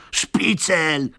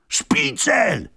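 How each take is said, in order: First: Shout from the crowd. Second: Much higher, loud yelling crowd. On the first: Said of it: "krzyknęło kilka głosów z tłumu". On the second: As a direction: bellow it as an angry mob. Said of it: "wrzasnął tłum". (wysoki, głośny wrzask tłumu) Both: Acted.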